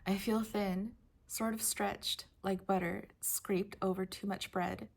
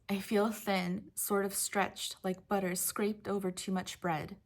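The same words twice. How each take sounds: First: It is read with weight and gravitas. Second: It is read lightly, without gravitas.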